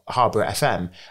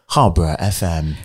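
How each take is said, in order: First: It is said in an ordinary conversational voice. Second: It is said in a polished radio presenter voice.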